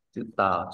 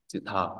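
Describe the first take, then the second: First: Said in the usual way. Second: "chữ thờ" with a puff of air on the th; aspirated th. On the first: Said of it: "chữ tờ, chữ suy ra". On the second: Shown as a demonstration. Teacher explaining the sound change rule, aspirated th. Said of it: "chúng ta phải đọc thành chữ".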